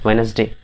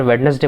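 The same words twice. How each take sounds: First: "वेडनेसडे" said as wenz-day, first D silent; correct pronunciation demo. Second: "वेडनेसडे" with the first D sounded; wrong pronunciation demo. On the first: Teacher answering what to read, "वेडनेसडे" without first D. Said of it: "यहाँ डी silent है". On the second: Teacher quoting a common mistake, D voiced in "वेडनेसडे". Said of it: "जबकि गलत है". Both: Shown as a demonstration.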